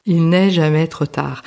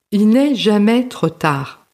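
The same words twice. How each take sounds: First: Said in the usual way. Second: "jamais trop tard" spoken higher and slowly, each word weighed; emphatic slow conclusion. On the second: Real, not acted. Encouraging listeners with a projet to start, higher and slow. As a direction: lift the voice and slow down on "il n'est jamais trop tard" to land the message. Closing motivational message to listeners.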